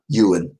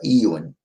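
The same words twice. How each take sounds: First: The name begins with a 'you' sound. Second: The name begins with an 'eye' sound. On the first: The speaker calls it right. "you pronounce it Ewan. So just you, just picture a U" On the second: The speaker calls it wrong. "I was getting his name wrong"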